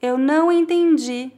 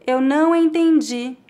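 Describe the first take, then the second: No difference in how they are said.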